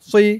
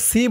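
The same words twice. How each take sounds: First: The syllable is heavy, with a full rounded mouth. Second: The syllable is light, with a thin s. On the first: The speaker calls it right. "বলতে হবে সি। এখানেও মুখে একটু গুল ভরপুর হয়ে থাকবে।" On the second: The speaker calls it wrong. "সি বললে কিন্তু সিনের উচ্চারণ হয়ে যাবে"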